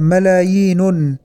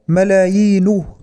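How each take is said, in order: First: The word ends with an added n sound. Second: The word ends without an added n sound. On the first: The speaker calls it wrong. "نطقها المذيع بالتنوين فقال ملايين" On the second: The speaker calls it right. "والصواب ملايين بلا تنوين"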